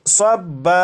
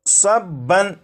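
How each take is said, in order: First: The word ends with a long a vowel. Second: The word ends with an n sound. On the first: "वक्फ में इसे पढ़ेंगे सब्बा" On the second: "ये है सब्बन"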